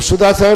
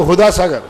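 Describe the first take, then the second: First: The first word begins with an s sound. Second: The first word begins with an h sound. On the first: The speaker calls it right. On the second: The speaker calls it wrong.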